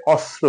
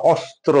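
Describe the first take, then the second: First: অস্ত্র said "osro", dropping the t; অস্ত্র without its ত; common mispronunciation. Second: অস্ত্র with the full s-t-r cluster; অস্ত্র said fully as "ɔstro"; correct pronunciation. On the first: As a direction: slur অস্ত্র into "ɔsro". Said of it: "আমরা প্রায়শই ভুল করে অস্ত্র বলি". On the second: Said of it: "অস্ত্র না". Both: Shown as a demonstration.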